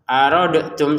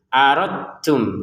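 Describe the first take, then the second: First: The d is sounded with a bounce before t. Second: The d merges straight into the t sound. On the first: The speaker calls it wrong. "jangan dibaca pantulan aradtum, salah" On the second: The speaker calls it right. "langsung ke ta-nya ya"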